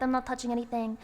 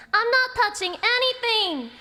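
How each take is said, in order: First: Said in the usual way. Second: Higher, louder, insistent shout; loud exclaiming. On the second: Acted. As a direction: shout it out indignantly. Loud repeat of line 67.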